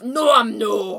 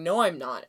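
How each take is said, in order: First: Loud Scottish No, I'm no; Scottish accent. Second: Said in the usual way. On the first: Shown as a demonstration. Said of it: "in a Scottish accent, which is". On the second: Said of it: "in a Scottish accent".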